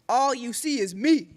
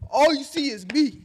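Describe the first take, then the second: First: It is read flatly, without much energy. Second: It is said dramatically, with high energy.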